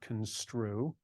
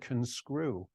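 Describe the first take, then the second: First: The middle sounds like 'strue', with a t. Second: The middle sounds like 'screw', with no t. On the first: The speaker calls it right. "not construe" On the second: The speaker calls it wrong. "I thought he said conscrew"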